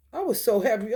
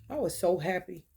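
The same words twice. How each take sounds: First: Louder and higher, excited; happy. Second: Said in the usual way. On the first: Real, not acted. Repeating to viewers how happy the twenty dollars made her, louder and higher. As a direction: lift it with real joy.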